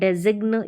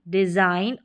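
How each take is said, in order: First: A hard g is sounded before the final n. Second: The g is silent; it sounds like dizain. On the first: The speaker calls it wrong. "इस तरीके से आप इनको pronounce नहीं करेंगे" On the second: The speaker calls it right. "जी जो है silent रहता है"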